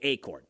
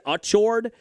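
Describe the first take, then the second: First: The name begins with an 'ay' sound. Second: The name begins with an 'achoo' sound. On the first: "like A Y" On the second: "like Achu was how they said it"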